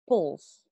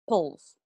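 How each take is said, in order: First: The syllable has a very reduced vowel. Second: The same.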